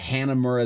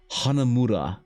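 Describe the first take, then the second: First: The name is said with English pronunciation. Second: The name is said with Japanese pronunciation.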